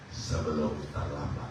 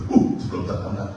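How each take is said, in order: First: Slow, hushed voice of God; quietly slowed down, as a solemn warning; God's words. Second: Sebelum terlambat said louder with alarm; louder and urgent on "terlambat"; repeating the warning. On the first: God warns the preacher softly and slowly. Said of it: "Tuhan bilang apa sama saya?". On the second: Preacher repeats God's warning louder, alarmed. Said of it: "Saya dengar kata itu". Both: Retold or imitated.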